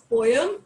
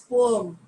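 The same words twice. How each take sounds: First: A y sound joins the two vowels, like poyam. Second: The two vowels are said apart, like po-em. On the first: The speaker calls it wrong. "the actual pronunciation is not poem" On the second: The speaker calls it right. "it is poem"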